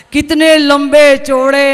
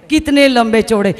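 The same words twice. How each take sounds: First: Slow, stretched mock eulogy; drawn-out praise. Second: Said in the usual way. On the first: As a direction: draw out each word in fake awe.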